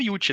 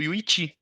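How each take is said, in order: First: The name is said as two syllables, Yu-ti. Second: The name is said as three syllables, Yu-i-chi. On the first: This is how the name was said for years. The speaker calls it wrong. "da vida inteira eu pronunciava Yuti" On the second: This is the name's proper pronunciation. The speaker calls it right. "É o Yuichi, o correto"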